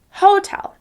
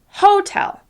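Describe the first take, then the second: First: The stress is on the first syllable. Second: The same.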